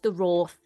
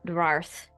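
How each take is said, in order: First: The name is said with an 'aw' vowel. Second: The name is said with an 'ar' vowel. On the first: It is the official pronunciation. The speaker calls it right. "I know it's the Roth" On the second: It is a long-running joke pronunciation. The speaker calls it wrong. "we've done Rarth for so long that I'm not stopping now"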